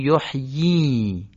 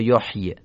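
First: The final i vowel is lengthened into a long vowel. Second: The final vowel is short, not lengthened. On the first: The speaker calls it right. "میگیم یحیی. در واقع این کسره رو اشباع میکنیم" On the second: The speaker calls it wrong. "یا یحیی"

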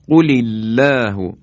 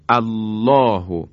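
First: The opening vowel is dropped, linked to the previous word. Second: The word begins with a pronounced glottal a-vowel. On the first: "الف الله اینجا همزه وصل بود" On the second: "اگر از کلمه دوم یعنی الله میخوایم شروع کنیم باید بگیم الله"

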